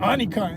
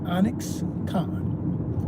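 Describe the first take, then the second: First: The x sound in the name is missing. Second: The x sound in the name is clearly present. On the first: The speaker calls it wrong. "and then they mispronounce it" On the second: The speaker calls it right. "Put the X in it"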